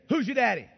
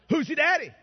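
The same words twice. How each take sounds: First: It is said at normal loudness. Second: It is said a little louder.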